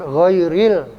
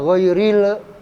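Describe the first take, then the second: First: The word ends cleanly on the l sound. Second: An extra vowel sound follows the final l. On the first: The speaker calls it right. "Tapi ghairil" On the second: The speaker calls it wrong. "Nggak boleh dibaca ghairil, nggak boleh"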